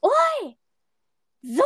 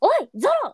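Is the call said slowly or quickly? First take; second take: slowly; quickly. First: The call is drawn out slowly. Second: The call is said quickly.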